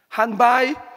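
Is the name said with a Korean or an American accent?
American. The name is said with an American English accent. The speaker calls it wrong.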